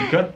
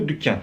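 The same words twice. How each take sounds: First: Dükkan said as "djukan", d softened to dj; mock the Brazilian "djukan" for dükkan; laughing at the Brazilian dükkan; Brazilian mispronunciation. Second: Dükkan with a rounded Turkish ü, no dj sound. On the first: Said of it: "acho que vocês vão falar que". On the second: Shown as a demonstration. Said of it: "Por exemplo, loja. Em turco".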